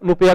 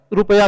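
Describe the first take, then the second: First: "नुपया" with N replacing the opening R; mispronounced rupaya. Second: Said in the usual way. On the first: Shown as a demonstration. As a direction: say "नुपया", first sound an N. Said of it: "रुपया को नुपया कहते हैं". ("नुपया": र की जगह न) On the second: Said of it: "कुछ लोग".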